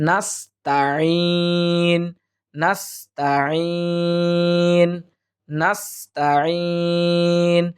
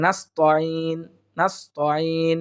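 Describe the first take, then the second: First: "নাস্তাইন" very slow, thin "taa", long-held "eeen"; correct tajweed. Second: "নাস্তাইন" with rounded "to", as "nas-to-een"; wrong pronunciation. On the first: Teacher correcting "to" to "ta", careful tajweed. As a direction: keep "ta" open and draw out the end of "নাস্তাইন". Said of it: "তা জবর তাই বলতে হবে". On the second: Teacher showing the big mistake, mistaken "to" for "ta". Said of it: "অনেকেই পড়ে থাকি". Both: Shown as a demonstration.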